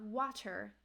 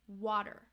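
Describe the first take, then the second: First: The middle consonant is a clear T sound. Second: The middle consonant is a quick D-like flap. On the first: The speaker calls it wrong. "it's not water" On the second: The speaker calls it right. "it's water. So that flap T ... sounds like a D sound"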